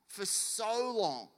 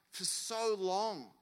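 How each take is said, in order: Both takes have the same delivery.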